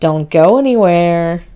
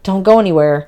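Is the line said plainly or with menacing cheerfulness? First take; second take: menacing; plainly. First: It is said with sinister, too-cheerful menace. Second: It is said plainly, without menace.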